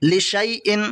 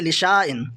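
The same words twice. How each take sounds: First: लिशाइन said "li-shay-in"; correct silent alif. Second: लिशाइन said "li-shaa-in"; wrongly sounded alif. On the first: Teacher tells students what to read, "shay" without long alif. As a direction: turn the middle of लिशाइन into a "shay" glide. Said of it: "पढ़ना है". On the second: Teacher warns against this reading, long "shaa". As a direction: hold a long "aa" in the middle of लिशाइन. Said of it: "ना कि". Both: Shown as a demonstration.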